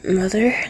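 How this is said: It is said in a drowsy, sleepy voice. The speaker calls it right.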